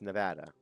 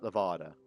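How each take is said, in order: First: It uses the local Nevada pronunciation. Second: It uses the outsiders' West Coast pronunciation. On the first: The speaker calls it right. "it's Nevada" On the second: The speaker calls it wrong. "Not Nevada, for all you people out there from the fucking West Coast. It's not Nevada"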